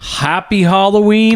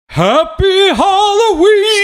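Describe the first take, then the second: First: It is said in a normal voice. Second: It is said in a spooky voice.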